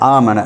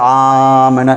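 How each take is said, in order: First: The first long vowel is held for normal length. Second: The first long vowel is stretched out extra long. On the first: This is how Hafs reciters read it. "நாங்கள் ஆமன என்று தான் ஓதுவோம்" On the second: This is how Warsh reciters read it. "அப்போ ஆமன என்று ஓதுவார்கள்"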